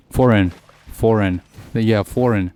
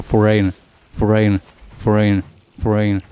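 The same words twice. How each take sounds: First: "foreign" as FOR-en; corrected pronunciation. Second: "foreign" as fo-RAYN; habitual mispronunciation. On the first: Gamer correcting their own habit by repeating it, FOR-en pronunciation. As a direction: stress the first syllable of "foreign" and keep the second short. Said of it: "More foreign". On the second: Gamer repeating their habitual version to test it, fo-RAYN pronunciation. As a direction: lean on a long AY in the second syllable of "foreign". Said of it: "I'm used to say foreign". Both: Shown as a demonstration.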